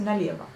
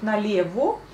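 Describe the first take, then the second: First: Налево with the last o reduced toward a; spoken налево. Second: Налево with a full o at the end; written налево. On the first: Teacher showing the spoken налево, quick reduced ending. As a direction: say налево as it sounds, ending nalev-a. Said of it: "la prononciation c'est налево". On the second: Teacher reading налево as spelt, o ending. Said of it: "Donc налево". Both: Shown as a demonstration.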